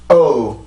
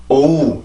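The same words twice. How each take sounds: First: 오우 with a tight catch in the throat, then rising; 오우 pushed out through tensed vocal cords; tensed stress. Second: Said in the usual way. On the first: Shown as a demonstration. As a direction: squeeze the vocal cords on 오우 and let it rise. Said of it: "성대가 이렇게 긴장돼서 소리를 변형을 시켜서". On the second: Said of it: "이러면 그냥 올라오는 거고".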